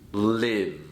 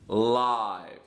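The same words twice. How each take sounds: First: The vowel is short, rhyming with give. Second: The vowel is long, rhyming with five. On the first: It means to reside or be alive. "If I use this word as a verb, it is pronounced live" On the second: It means happening in real time. "If I use the word as an adjective, it is pronounced live"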